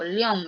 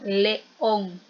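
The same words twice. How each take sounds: First: The two vowels merge into one syllable. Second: The two vowels form two separate syllables. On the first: The speaker calls it wrong. "no digo león" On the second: The speaker calls it right. "Digo león. Hacemos esa fuerza"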